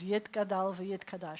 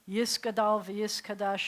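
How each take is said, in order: First: It uses Sephardic pronunciation, with 't' sounds. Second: It uses Ashkenazic pronunciation, with 's' sounds.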